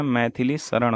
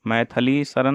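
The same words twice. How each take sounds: First: Said in the usual way. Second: मैथिली शरण as "maithali sharan"; wrong vowel and n. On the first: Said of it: "मैथिली शरण होता है". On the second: Shown as a demonstration. Teacher showing a mistake, मैथिली शरण as "maithali sharan". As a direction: flatten मैथिली to "maithali", end शरण in dental n. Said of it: "नहीं होता है".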